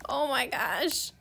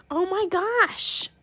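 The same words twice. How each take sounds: First: Said in the usual way. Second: High, loud, very slow oh my gosh; excited oh my gosh. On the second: Real, not acted. Gamer reacting to a huge offer, excited. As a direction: stretch it out in amazement.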